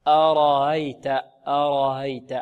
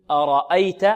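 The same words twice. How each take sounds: First: أرأيت long and slow, second hamza softened to a glide; تسهيل الهمزة. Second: Said in the usual way. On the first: Shown as a demonstration. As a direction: ease the second hamza of أرأيت, no hard stop. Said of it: "في رواية الإمام قالون نقول ماذا". (أرأيت بهمزة ثانية مسهلة) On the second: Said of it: "يعني بدل من أرأيت".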